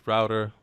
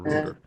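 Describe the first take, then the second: First: It is said with an American accent. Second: It is said with a British accent.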